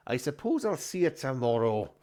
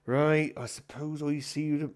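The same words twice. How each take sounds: First: Lightly voiced grudging landlord; corrected character voice. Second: A put-on voice, slightly raised; wrong character voice. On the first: Landlord bidding the comedian goodbye, in his corrected voice. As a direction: redo it in the character's own voice. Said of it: "he doesn't speak like that, does he?". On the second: Landlord bidding the comedian goodbye, in a mistaken voice. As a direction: start in a voice that isn't his. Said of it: "he doesn't speak like that".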